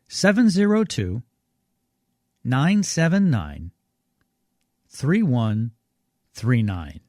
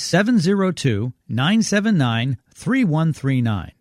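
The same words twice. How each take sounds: First: The number is read at a slower pace. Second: The number is read at a normal pace.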